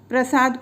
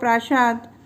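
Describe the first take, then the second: First: It is said with standard Hindi pronunciation. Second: It is said with a Bengali regional pronunciation.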